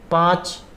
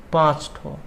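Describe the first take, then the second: First: पाँच said alone, raised and punched; पाँच with clear emphasis; stress on पाँच. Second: पाँच ठो said in a dropped, casual everyday way; पाँच ठो, relaxed and spoken; colloquial form. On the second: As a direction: let पाँच ठो fall off, loose and colloquial. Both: Shown as a demonstration. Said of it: "बलाघात क्या होता है?".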